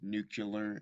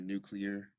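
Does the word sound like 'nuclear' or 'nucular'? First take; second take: nucular; nuclear. First: The middle sounds are swapped. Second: The middle sounds are in standard order. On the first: "when someone says" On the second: "instead of"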